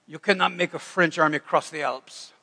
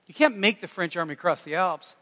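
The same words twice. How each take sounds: First: Half-hearted mock French accent; attempted French accent. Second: Said in the usual way. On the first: Napoleon answering about the Alps, attempted French accent. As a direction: try a rough French accent. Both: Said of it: "That's the best French accent I got".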